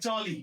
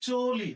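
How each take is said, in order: First: চলি as "chawli", open ɔ; wrong open vowel. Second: চলি as "choli", rounded o; closed o vowel. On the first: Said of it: "চলি তো বলি না". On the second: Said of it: "আমরা বলি". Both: Shown as a demonstration.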